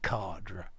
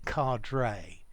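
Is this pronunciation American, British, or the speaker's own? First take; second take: own; American. First: It is said in the speaker's own way. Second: It is said the common American way. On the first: The speaker calls it right. "I say cadre" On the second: The speaker calls it wrong. "many Americans say cadre"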